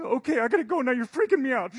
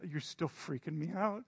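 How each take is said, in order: First: High, loud squeaky bird in a rush; hurried hummingbird. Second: Said in the usual way. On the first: Acted. Hummingbird rushing off after his message, high hurried squeak. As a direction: squeak it out, eager to dart off.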